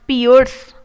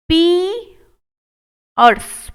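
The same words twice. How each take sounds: First: Said in the usual way. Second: piers drawn out very slowly; slow model take. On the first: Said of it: "normal repeat". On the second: Shown as a demonstration. Teacher modelling piers slowly for students. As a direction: stretch the ee in piers. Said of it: "मेरी तरह बोल कर देखिएगा".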